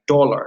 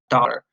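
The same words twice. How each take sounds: First: The first vowel is said with rounded lips. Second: The first vowel is said with unrounded lips.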